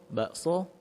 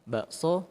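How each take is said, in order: No difference in how they are said.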